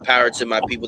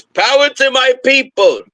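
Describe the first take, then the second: First: Said in the usual way. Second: Imitating a Russian clerk, high and loud; Russian accent, pitched way up; strong Russian accent. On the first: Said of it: "He said". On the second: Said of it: "in a strong Russian accent".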